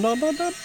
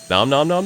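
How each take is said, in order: First: "nom, nom, nom" squeaked much higher and softer; cartoon munching noises; squeaky high nom. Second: Said in the usual way. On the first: Playfully eating butterflies.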